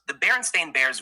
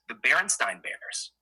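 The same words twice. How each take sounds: First: "Berenstain" ending like the word "stain"; official pronunciation. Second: "Berenstain" said with a "stine" ending; misremembered pronunciation. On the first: Contrasting the real name with the remembered one, "Berenstain" rhyming with rain. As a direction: say "Berenstain" with a long A in the last syllable. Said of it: "apparently it's always been Stain". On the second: Showing how everyone remembers the name, "Berenstain" ending in "stine". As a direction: say "Berenstain" as if spelt Berenstein, rhyming with fine. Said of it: "Everyone remembers it as Nice Stein".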